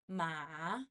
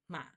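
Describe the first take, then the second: First: The pitch dips to the bottom, then rises. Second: The pitch stays low without rising. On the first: This is the full textbook form of the tone. "Go a little bit higher to the lowest and then up" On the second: This is how it is said in daily speech. "We only do the lowest part"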